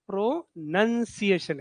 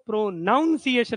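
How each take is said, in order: First: The second syllable sounds like 'nun'. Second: The second syllable sounds like 'nown'. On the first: The speaker calls it right. "प्रोनन्सिएशन आहे" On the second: The speaker calls it wrong. "आपण काय उच्चारतो, प्रोनाऊन्सिएशन म्हणतो, अर्थात ते प्रोनाऊन्सिएशन नाही"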